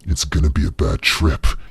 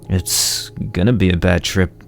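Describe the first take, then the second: First: It is said in a deeper voice. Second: It is said in a normal voice.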